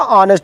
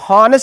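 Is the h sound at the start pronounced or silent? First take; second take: silent; pronounced. First: The word begins with a vowel sound. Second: The word begins with an h sound. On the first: This is how it is actually said. "ऑनेस्ट बोलते हैं" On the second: This is how it is written. "हॉनेस्ट लिखा होता"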